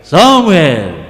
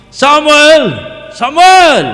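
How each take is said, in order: First: God calling in a big, deep voice. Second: Loud, angry shout of the name; angry call. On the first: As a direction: drop the voice low and big for God's call. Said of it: "agak besar ya". (suara Tuhan yang besar dan dalam) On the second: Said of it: "itu marah". (panggilan keras dan marah) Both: Shown as a demonstration.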